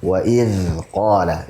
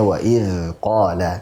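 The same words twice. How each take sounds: No difference in how they are said.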